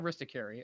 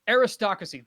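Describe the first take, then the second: First: The word ends in 'cary' without the second r. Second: The word ends in 'cracy' with the second r. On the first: The speaker calls it wrong. "that's not right. Not aristocary" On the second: The speaker calls it right. "Thank you"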